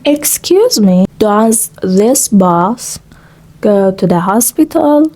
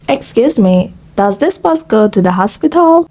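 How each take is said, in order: First: The sentence is spoken at a slow pace. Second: The sentence is spoken at a fast pace. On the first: "speaking slow English" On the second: "speaking fast English"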